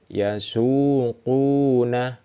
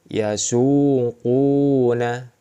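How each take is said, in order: First: The vowel is held long. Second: The vowel is held long.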